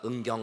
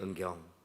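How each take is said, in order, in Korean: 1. 이름을 크게 외치며 일부러 메아리를 넣어요. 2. 이름을 부드럽고 조용하게 말해요. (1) "은경 아우 아우 아우 아우 이렇게 말씀하실까요?" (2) "조용히 은경 이렇게 말씀하실까요?"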